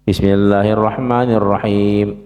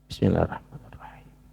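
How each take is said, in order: First: It is said aloud, in a full voice. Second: It is said quietly, under the breath.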